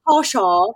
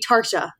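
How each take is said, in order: First: The name is said without an R sound. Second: The name is said with an R sound. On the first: "because I'm saying Tasha" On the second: "if I were to put an R in there, it'd be Tarsha"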